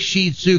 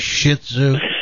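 First: The first syllable sounds like 'sheet'. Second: The first syllable sounds like 'shit'. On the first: It avoids saying a rude word. "say Shih Tzu because they don't want to say" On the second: It sounds like a rude word. "they don't want to say Shih Tzu"

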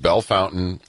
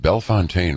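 First: It is said the way locals say it. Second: It is said the way outsiders say it. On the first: The speaker is from the area. The speaker calls it right. "So yes, yeah, Bell Fountain" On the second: The speaker is not from the area. The speaker calls it wrong. "commercials that are done out of town, because they say it's right off of Bellefontaine Road"

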